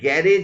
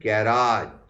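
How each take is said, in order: First: The second syllable sounds like 'rej'. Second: The second syllable sounds like 'raj'. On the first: The speaker calls it wrong. "ঠিক pronunciation গ্যারেজ নয়" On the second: The speaker calls it right.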